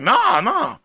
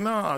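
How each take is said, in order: First: The word sounds disgusted and dismissive. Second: The word sounds plain and matter-of-fact. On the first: The idea is repulsive to the person answering. The speaker calls it wrong. "Why are you saying it like, why it's disgusting at the thought of me being your husband?" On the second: It is a simple denial with no judgment. The speaker calls it right. "just be like, no"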